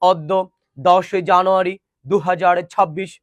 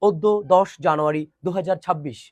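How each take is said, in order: First: Slow date with "অদ্য" as awddo; nonstandard pronunciation. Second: Date with "অদ্য" as oddo; closed round o at the start of "অদ্য"; standard pronunciation. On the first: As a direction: open aw at the start of "অদ্য". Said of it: "প্রমিত উচ্চারণে কথা বলতে পারে না". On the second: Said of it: "কিন্তু হবে". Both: Shown as a demonstration.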